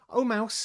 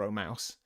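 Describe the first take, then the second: First: Grand, high and loud Oh; an exaggerated formal greeting; formal address. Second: Said in the usual way. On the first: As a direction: declaim Oh, mouse like a solemn title. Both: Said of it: "the right way to speak to a mouse".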